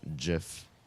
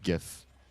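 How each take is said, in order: First: It begins with a soft G, as in gem. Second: It begins with a hard G, as in go. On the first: "or a soft G" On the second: "with a hard G"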